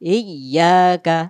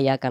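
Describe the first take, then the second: First: It starts with a glottal stop and doubled 'y'. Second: It starts directly with a light 'ya' sound. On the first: The speaker calls it right. "এই তাসদিদটাকে এই হামজার সাথে উচ্চারণ করে ধাক্কাতে হবে" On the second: The speaker calls it wrong. "অনেক মানুষ বলে ফেলে"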